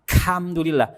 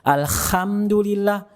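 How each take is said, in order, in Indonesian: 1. Huruf h dibunyikan sebagai k. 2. Huruf h dibunyikan sebagai kh yang kasar. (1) "Ada yang kena kaf" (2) "kena huruf kha misalkan"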